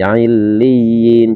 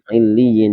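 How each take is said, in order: First: The vowel is drawn out long. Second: The vowel is kept short. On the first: The speaker calls it wrong. "jadi ini tidak terbaca illiyin" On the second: The speaker calls it right. "cuman illiyin"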